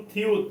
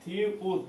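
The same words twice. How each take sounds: First: Said in the usual way. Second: "থিউত" split into থি, then উত; syllable by syllable. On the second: Shown as a demonstration. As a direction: sound out "থিউত" with a gap before উত. Teacher breaks up letter name. ("থিউত" ভেঙে ভেঙে, থি... উত)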